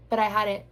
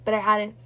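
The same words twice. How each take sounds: The two takes are said the same way.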